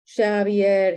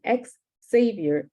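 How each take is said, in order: First: The name begins with an 'h'-like sound. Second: The name begins with an 'ex' sound. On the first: The father says his own name this way. The speaker calls it right. "he says, over and over" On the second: Others say the name this way. The speaker calls it wrong. "mispronounce his name, call him ex-savior"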